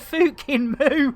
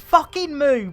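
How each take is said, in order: First: The first word has a northern English pronunciation. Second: The first word has a standard pronunciation. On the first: "it's a very north northern thing to say Fukin instead of fucking" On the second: "it's fucking Moo"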